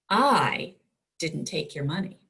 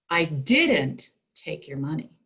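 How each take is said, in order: First: The stress is on the word I. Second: The stress is on the word didn't.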